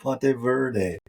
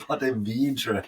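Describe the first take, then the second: First: The last word is said as Verde. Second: The last word is said as Vedra. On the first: The speaker calls it wrong. "not the Ponte Verde" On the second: The speaker calls it right. "It's the Ponte Vedra hat"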